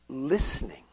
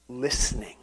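First: Near-whisper, very soft; whispered repeat. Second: Low, soft, falling reveal; hushed answer. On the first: Preacher repeats the climber's key for emphasis, whispered. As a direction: let the word sink to a whisper. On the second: Preacher reveals the climber's key to the congregation, hushed. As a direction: say it quietly, voice dropped low. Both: Acted.

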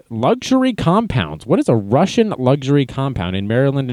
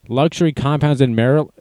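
First: Mocking disbelief at "Luxury compounds"; incredulous. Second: Said in the usual way. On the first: Shown as a demonstration. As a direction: question it with disbelief.

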